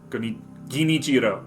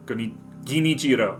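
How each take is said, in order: First: The R is a quick tongue tap. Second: The R is a quick tongue tap.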